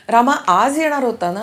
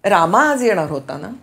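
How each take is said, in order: First: The stress is on आज. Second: The stress is on रामा.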